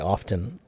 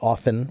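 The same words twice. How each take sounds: First: The word is said with an audible T. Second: The word is said with a silent T. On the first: "Some people say often and pronounce the T" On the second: "Some people say often with no T"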